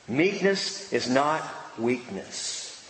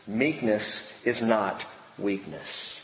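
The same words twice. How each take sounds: First: "Meekness" leaned on, slow and low; slow emphatic restatement. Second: Meekness is not weakness said slowly and low, each word weighted; slow emphatic statement. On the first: Preacher repeating the key point to the congregation, slow. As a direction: repeat "Meekness is not weakness" with weight on Meekness. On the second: Preacher stressing the key point to the congregation, slow and low. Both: Shown as a demonstration. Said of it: "Note this".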